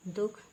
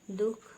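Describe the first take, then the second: First: दुख without visarga, plain dukh; no breath after the vowel in दुख; wrong pronunciation. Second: दुख with visarga breath, duhkh; correct pronunciation. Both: Shown as a demonstration. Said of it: "विसर्ग की अशुद्धियाँ".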